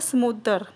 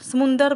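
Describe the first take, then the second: First: No n sound is heard in the middle. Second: An n sound is heard in the middle. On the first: The speaker calls it right. "इसमें न वाली sound नहीं आती है" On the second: The speaker calls it wrong. "समुंदर बोलते हैं कई बच्चे इसको"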